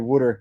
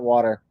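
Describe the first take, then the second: First: It is said in a New Jersey accent. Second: It is said without a New Jersey accent. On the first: "In Jersey, we say water" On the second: "not water"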